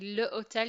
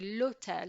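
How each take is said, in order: First: The article is said as a separate syllable. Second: The article merges into the noun as one word. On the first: The speaker calls it wrong. "you don't say le hotel" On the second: The speaker calls it right. "it becomes one word, it flows nicely"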